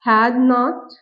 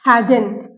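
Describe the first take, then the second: First: It is said as two full separate words. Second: It is said as one contracted word. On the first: "हैड नॉट को आप हैडेंट भी कहते हैं" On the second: "mostly हम speak करते हैं हैडेंट"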